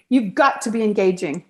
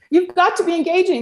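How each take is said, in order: First: Said in the usual way. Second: You've got to be engaging, higher with "got" punched; emphatic repeat. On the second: Shown as a demonstration. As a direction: hammer the word "got" home the second time.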